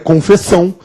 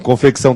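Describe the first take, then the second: First: The C before the ç is silent. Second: The C before the ç is pronounced. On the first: The speaker calls it wrong. "se ele fosse mudo" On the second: The speaker calls it right. "confecção tem um C sonoro sem vogal posterior"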